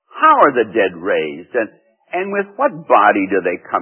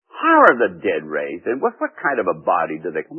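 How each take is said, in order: First: It is said in a plain, neutral tone. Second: It is said in a mocking, sarcastic tone.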